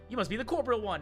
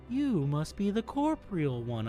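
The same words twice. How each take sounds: First: It is read in a plain, normal voice. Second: It is read in an eerie, ethereal put-on voice.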